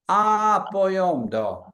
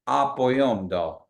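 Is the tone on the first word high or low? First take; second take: high; low. First: The first word has a high tone. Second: The first word has a low tone. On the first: Everyone else is good. "High tone means ah ah boyom do. They're all good" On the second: The speaker is good. "I'm good"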